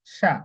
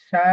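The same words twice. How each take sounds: First: Said in the usual way. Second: সা drawn out with the long আ of madd tabai; lengthened সা. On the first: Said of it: "আমরা সাধারণত পড়তাম". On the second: Shown as a demonstration. Teacher shows students the long আ after alif, drawn out. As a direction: stretch the vowel in সা. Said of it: "এখানে পড়তে হবে".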